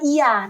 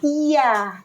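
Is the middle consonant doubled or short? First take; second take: short; doubled. First: The middle consonant is short, not doubled. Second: The middle consonant is doubled and held longer. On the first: The sun is worshipped. The speaker calls it wrong. "jangan iya" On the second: Only God is worshipped. The speaker calls it right. "tapi iya, karena kakak tahu dia bertasdid"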